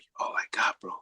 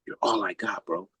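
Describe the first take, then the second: First: Put-on the boy's plea, barely breathed; retold in a hushed whisper. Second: Said in the usual way. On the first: Retelling what Shane said, softly whispered.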